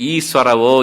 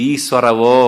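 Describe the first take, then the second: Both takes have the same delivery.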